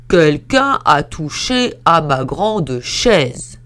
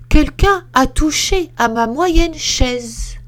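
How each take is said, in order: First: Slow, loud, heavy papa bear; lumbering big bear, slowly booming. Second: Higher, louder and slow mama bear; a fussy middle bear, pitched up. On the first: Big bear complains about his chair, in a slow booming voice. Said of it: "dit d'une grosse voix". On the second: Middle bear complains about her chair, high and slow. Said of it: "dit d'une moyenne voix". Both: Acted.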